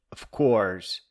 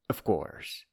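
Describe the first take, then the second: First: Said in the usual way. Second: "of course" breathed as a dry whisper; sarcastic whispered "of course"; whispered aside. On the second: Shown as a demonstration. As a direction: drop "of course" to a knowing whisper.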